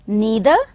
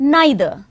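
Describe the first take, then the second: First: The first vowel sounds like 'ee'. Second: The first vowel sounds like 'eye'. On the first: "दोनों ही आप उच्चारण कर सकते हैं" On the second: "दोनों ही आप उच्चारण कर सकते हैं"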